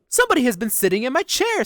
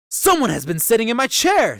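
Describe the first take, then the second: First: It is said in a medium-pitched voice. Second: It is said in a deep, gruff voice.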